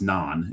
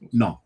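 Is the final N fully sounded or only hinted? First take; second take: fully sounded; hinted. First: The final N is clearly sounded. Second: The final N is only hinted at. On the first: The speaker calls it wrong. "It's not pronounced non" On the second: The speaker calls it right. "that N sort of at the end is kind of implied"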